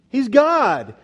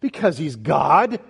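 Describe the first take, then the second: First: High, loud cry falling on "God"; emphatic exclamation. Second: Slow build rising onto "God"; emphatic answer. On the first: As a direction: proclaim "God" from high up, loudly. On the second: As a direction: answer slowly, lifting "God" at the end. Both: Real, not acted. How did he know?.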